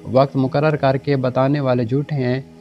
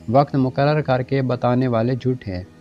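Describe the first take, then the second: No difference in how they are said.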